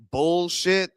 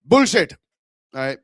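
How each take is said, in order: First: Slow American-accented BULLSHIT. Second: Indian accent. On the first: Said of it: "with the American accent". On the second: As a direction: punch out "Bullshit" in an Indian accent. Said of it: "that certain Indian accent". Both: Shown as a demonstration.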